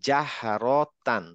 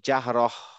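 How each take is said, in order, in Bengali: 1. শব্দটি পূর্ণ -tan দিয়ে শেষ হয়। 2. শব্দটি শেষে -h ধ্বনি দিয়ে শেষ হয়।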